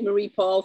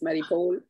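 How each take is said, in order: First: The vowel in Paul sounds like 'aw'. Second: The vowel in Paul sounds like 'oh'. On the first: Other people have been saying it this way. The speaker calls it wrong. "They've been calling me Marie Paul for fifteen years" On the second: This is the name's real pronunciation. The speaker calls it right. "when it's Marie Paul ... A U means O"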